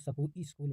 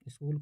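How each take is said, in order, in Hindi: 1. s और k के बीच एक स्वर डाला जाता है। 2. शब्द की शुरुआत में व्यंजन गुच्छ sk है। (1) "स्वरागम, स्कूल को सकू स्कूल बोलना" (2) "स्वरागम"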